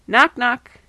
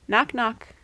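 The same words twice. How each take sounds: First: It is said a little bit louder. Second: It is said at a normal, softer volume.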